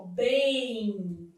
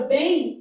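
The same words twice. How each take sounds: First: "bem" drawn out, gliding into an I; teacher lingering on the nasal glide of "bem"; M sounding like I. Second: Said in the usual way. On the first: Shown as a demonstration. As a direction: stretch "bem" softly into "beim". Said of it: "esse M tem som de I". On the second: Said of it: "há um ditongo fonético".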